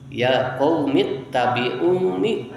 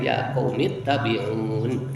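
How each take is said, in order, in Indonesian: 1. Kata terakhir berakhir dengan vokal pendek. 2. Kata terakhir berakhir dengan konsonan. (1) "Ulah dipanjangkeun" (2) "teras pemilihan bakap we"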